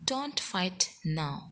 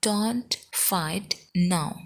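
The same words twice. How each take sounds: First: Said in the usual way. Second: Firm, word-by-word pace; very slow, spaced-out demonstration; slow model repeat. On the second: Shown as a demonstration. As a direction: separate each word clearly for learners. Teacher repeats slowly, word by word.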